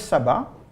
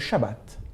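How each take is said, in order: First: It is said with the usual French pronunciation. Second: It is said with the Hebrew pronunciation. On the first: "celui qu'on appelle le sabbat" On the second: "si on le prononce comme les juifs"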